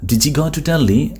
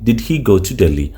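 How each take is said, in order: First: 'Did he' is blended into one sound, 'diji'. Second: 'Did' and 'he' are said as separate words. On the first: The speaker calls it right. "ഡിജി എന്നാണ് പറയുക" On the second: The speaker calls it wrong. "ഡിഡ് ഹി എന്ന് പറയില്ല"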